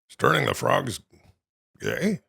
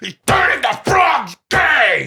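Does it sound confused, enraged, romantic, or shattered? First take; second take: confused; enraged. First: It is said in a puzzled, confused tone. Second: It is said in an enraged, shouting tone.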